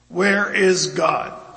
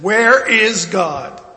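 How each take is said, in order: First: It is said sternly at a moderate volume. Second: It is said sternly with a loud, raised voice.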